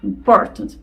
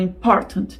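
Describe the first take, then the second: First: The t comes with a sharp push of breath. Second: The same.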